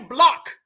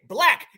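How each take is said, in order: First: The vowel is rounded, like an island accent. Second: The vowel is open and flat, American style. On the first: The speaker calls it wrong. "we don't say block" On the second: The speaker calls it right. "We say black"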